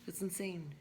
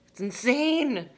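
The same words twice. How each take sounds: First: Said in the usual way. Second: "It's insane" drawn out slowly, much higher and louder; slow, stretched, loud marvel on "insane"; real disbelief, each word stretched out; emphatic amazement. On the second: Real, not acted.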